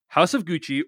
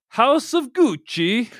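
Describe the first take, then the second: First: Said in the usual way. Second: Slow hammy Italian accent. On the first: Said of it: "its actual title is". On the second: Shown as a demonstration. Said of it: "that Italian accent I just did".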